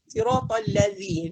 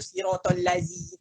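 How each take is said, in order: First: The consonant in lazi is a dh sound. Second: The consonant in lazi is not a dh sound. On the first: The speaker calls it right. "Dia kena sirotol lazi zal tu" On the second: The speaker calls it wrong. "tak nak itu sirotol lazi, tak nak macam tu"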